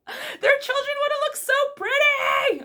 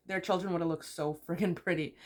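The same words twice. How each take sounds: First: Very high, loud fangirl shriek; high-pitched overexcited wail; gushing squeal. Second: Said in the usual way. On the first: Real, not acted. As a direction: squeal it as if overcome by cuteness. Gushing over her favourite couple.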